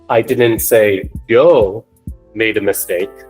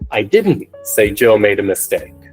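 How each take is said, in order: First: The word Joe carries the strongest stress. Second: The word didn't carries the strongest stress. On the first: Someone else made the mistake. "So when we place the emphasis on Joe" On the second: I said something else. "if we place the emphasis on another word, for example, didn't"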